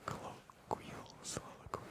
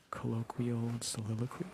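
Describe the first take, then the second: First: "Colloquial soliloquy" whispered softly; ASMR whispered tongue twister. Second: Said in the usual way. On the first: Shown as a demonstration. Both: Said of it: "kind of a tongue twister".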